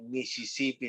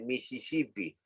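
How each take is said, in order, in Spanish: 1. Los sonidos de la s son claros y silbantes. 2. Los sonidos de la s se pronuncian como el sonido th. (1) "en vez de decir Mississippi" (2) "dice Mississippi, cesea"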